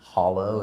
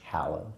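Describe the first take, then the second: First: The vowel is the 'o' of hollow. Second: The vowel is the 'a' of hallow. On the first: The speaker calls it wrong. "not hollow" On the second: The speaker calls it right. "it's hallow"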